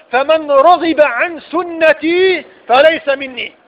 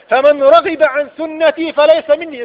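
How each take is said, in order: First: Slow and weighty. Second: Said in the usual way. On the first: Acted. Quoting the Prophet, repeated.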